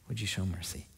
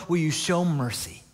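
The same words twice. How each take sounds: First: Very soft, low plea; hushed pleading. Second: Plea at near-normal volume; pleading. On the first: Preacher voicing the mother praying to God for mercy, hushed pleading. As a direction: drop to a hushed, lowered entreaty. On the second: Preacher voicing the mother asking God for mercy, pleading. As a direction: plead openly, letting the question fall. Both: Acted. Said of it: "She's just pleading with God".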